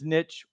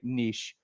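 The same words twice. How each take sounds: First: The word has a plain, everyday-sounding pronunciation. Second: The word has a fancier, refined-sounding pronunciation. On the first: This is how the speaker personally says it. The speaker calls it wrong. "I mispronounce it because I'm the person who says niche" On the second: This is how other, fancier people say it. The speaker calls it right. "other fancy people say niche"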